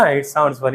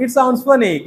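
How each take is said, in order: First: Said in the usual way. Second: Smiling, higher and bright on "It sounds funny"; with a smile. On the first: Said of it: "ऐसा करके नहीं". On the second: Shown as a demonstration. Teacher shows students the smiling way to react to a joke. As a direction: let a smile carry the line. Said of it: "smile के साथ".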